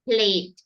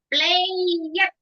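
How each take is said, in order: First: The ending is a single consonant, no extra syllable. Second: The ending is said as an extra syllable. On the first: The speaker calls it right. "Bacanya played" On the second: The speaker calls it wrong. "Played nggak ada ya"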